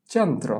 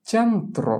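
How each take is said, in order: First: Said in the usual way. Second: চ্যান্ত্র drawn out, higher on the first syllable; pronunciation demo. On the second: Shown as a demonstration. Teacher models the matching word for pupils, চ্যান্ত্র drawn out and high. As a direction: model চ্যান্ত্র slowly with a high, falling tune. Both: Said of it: "এটার উচ্চারণ কি হবে".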